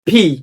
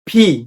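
First: The p sound is aspirated, with a puff of air. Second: The same.

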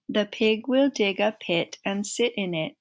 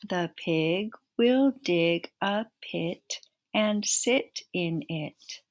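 First: It is said at the fastest pace. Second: It is said a little faster.

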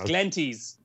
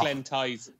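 First: The second syllable sounds like 'teez'. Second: The second syllable sounds like 'tize'. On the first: The speaker calls it right. "It's Glenties" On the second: The speaker calls it wrong. "not Glen Tyze"

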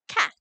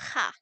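First: The word begins with a stop, a full closure. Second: The word begins with a breathy fricative sound. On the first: "This is a stop" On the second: "this is a voiceless velar fricative"

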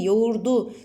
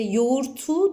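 First: The word is said with a d sound. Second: The word is said with a t sound. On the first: The speaker calls it right. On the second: The speaker calls it wrong. "İşte yoğurtu değil"

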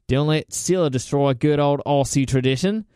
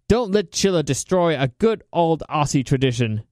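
First: It is said in an Australian accent. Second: It is said in the speaker's normal accent.

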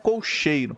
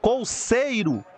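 First: The middle consonant is an 'sh' sound. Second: The middle consonant is an 's' sound. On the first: The speaker calls it wrong. "não colcheiro" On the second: The speaker calls it right. "então é com C"

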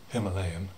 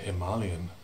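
First: It is pronounced in the other, commoner way. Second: It is pronounced in the speaker's preferred way. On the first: The speaker calls it wrong. "not Himalayan" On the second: The speaker calls it right. "and Himalayan"

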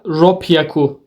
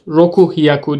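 First: It is said with a doubled p sound. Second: It is said with an h sound. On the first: The speaker calls it right. "Burada ropyaku diyoruz" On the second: The speaker calls it wrong. "Roku hiyaku demiyoruz"

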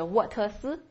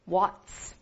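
First: It is said with three separate syllables. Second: It is said as one syllable ending in ts. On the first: The speaker calls it wrong. "或者是沃特斯，不要这样" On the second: The speaker calls it right. "读成ts... 读成what's"

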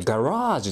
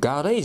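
First: The middle vowel sounds like a long 'ah'. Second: The middle vowel sounds like a long 'eh'. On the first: The speaker calls it right. "英語でガラージっていうの" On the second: The speaker calls it wrong. "ガレージじゃないんだよ"

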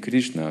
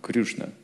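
First: The first vowel is a plain 'i' sound. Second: The first vowel is a rounded 'yu' sound. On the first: The speaker calls it right. "они повторяют не Кришна" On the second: The speaker calls it wrong. "а Крюшна"

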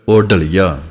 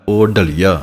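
Both takes have the same delivery.

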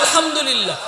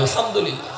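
First: It is said more loudly. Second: It is said at a normal volume.

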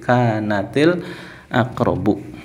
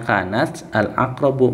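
First: Kanat links on with an added i sound. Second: Kanat is said separately, ending in a bare t. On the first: "kalau mau dibaca sambung, sukunnya dibaca kas kasroh"

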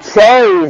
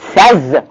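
First: The vowel is a long a sound. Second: The vowel is a short e sound. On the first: The speaker calls it wrong. "It's not says" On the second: The speaker calls it right. "it is says"

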